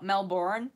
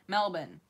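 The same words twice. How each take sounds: First: The R sound is pronounced in the word. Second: The R sound is left out of the word. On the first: This is how non-locals say it. The speaker calls it wrong. "not Melbourne" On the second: This is how locals say it. The speaker calls it right. "We don't pronounce the R's"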